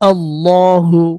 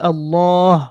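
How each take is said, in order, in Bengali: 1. শব্দটি শেষ হয় একটি শেষের u স্বরধ্বনি দিয়ে। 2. শব্দটি h দিয়ে শেষ হয়, কোনো স্বরধ্বনি ছাড়া। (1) "পুরো শব্দটাই বলো।" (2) "অক্ফ করলে হা সাকিন হবে"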